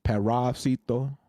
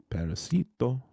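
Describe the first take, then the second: First: Slow careful "Parasito" with the weight on "ra"; unsure test of "Parasito", stressing the "ra"; trying the stress. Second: Quicker "parasito" with a reduced "ra" and a falling end; trying "parasito" again with a falling finish; second try at stress. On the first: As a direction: sound out "Parasito" slowly, leaning on "ra". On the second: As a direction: toss off "parasito" lightly, the "ra" barely there. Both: Shown as a demonstration. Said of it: "is the emphasis on the ra".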